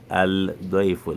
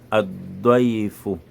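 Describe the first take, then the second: First: The L is pronounced separately before the D. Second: The L merges into a doubled D sound. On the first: The speaker calls it wrong. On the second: The speaker calls it right.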